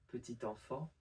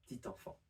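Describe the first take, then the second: First: The vowel after the first p is pronounced. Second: The vowel after the first p is dropped.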